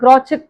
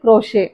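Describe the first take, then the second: First: The middle consonant is a 'ch' sound. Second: The middle consonant is an 'sh' sound. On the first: The speaker calls it wrong. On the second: The speaker calls it right.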